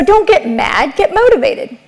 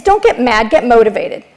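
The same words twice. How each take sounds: First: Motivated lifted much higher; rising punchline. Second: Said in the usual way. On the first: Shown as a demonstration. Speaker rallying the audience, motivated lifted high. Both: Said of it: "repeated motto".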